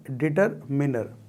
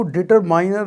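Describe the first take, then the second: First: डिटरमिनर with a short i in मिनर; correct pronunciation. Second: डिटरमाइनर with an 'eye' vowel in माइ; wrong pronunciation. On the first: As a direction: give the proper डिटरमिनर, ending '-minner'. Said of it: "आपको मिलेगा डिटरमिनर". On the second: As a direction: cite the mistaken डिटरमाइनर, rhyming its end with 'miner'. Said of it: "नहीं मिलेगा". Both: Shown as a demonstration.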